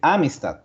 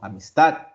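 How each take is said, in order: First: The stress falls on the first syllable. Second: The stress falls on a later syllable. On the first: The speaker calls it wrong. "la sílaba tónica no es A. Uno no dice amistad" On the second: The speaker calls it right. "Es otra la sílaba tónica"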